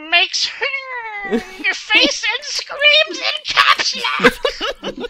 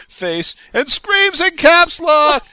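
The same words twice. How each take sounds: First: Loud laughing yell, drawn out slowly; caps lock yell. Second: Loud, slow laughing shout; caps lock yell. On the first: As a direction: shout it like an all-caps post. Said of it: "read that title in the voice I was just saying". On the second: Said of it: "as Toast said". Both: Shown as a demonstration.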